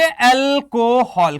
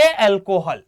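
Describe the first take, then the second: First: Alcohol stretched slowly, like answering for the class; alcohol drawn out long and slow, modelling the answer. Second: Said in the usual way. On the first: Shown as a demonstration. Teacher models the class's answer to his question, slow and drawn out. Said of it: "इसको हम क्या नाम देंगे?". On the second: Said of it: "क्या नाम देंगे?".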